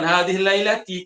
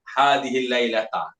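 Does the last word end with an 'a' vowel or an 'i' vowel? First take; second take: i vowel; a vowel. First: The last word ends with an 'i' vowel. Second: The last word ends with an 'a' vowel. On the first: The speaker calls it wrong. "ada orang dia baca gitu" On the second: The speaker calls it right. "Memang sepatutnya gitu ya"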